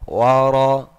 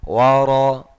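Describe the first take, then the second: Both takes have the same delivery.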